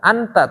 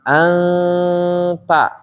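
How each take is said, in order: First: The n is pronounced clearly and fully. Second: The n is softened into a thin nasal sound. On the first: The speaker calls it wrong. "bukan anta" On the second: The speaker calls it right. "tapi anta, karena dia tipis ya"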